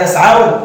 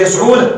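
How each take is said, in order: First: يسعون with a fatha on the ayn; يسعون as yas-AW-na, drawn out slowly; correct pronunciation. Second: يسعون with a damma on the ayn; يسعون as yas-OO-na, no "aw" diphthong; mistaken pronunciation. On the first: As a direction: say يسعون with an "aw" diphthong, yas'awna. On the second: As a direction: say يسعون with a long "oo", yas'oona. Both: Shown as a demonstration. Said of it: "لا تقل يسعون".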